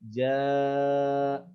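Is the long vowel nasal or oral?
oral. The long vowel is clear, without nasal sound. The speaker calls it right. "Harus jaa"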